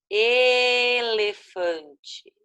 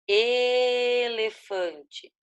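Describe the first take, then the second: Both takes have the same delivery.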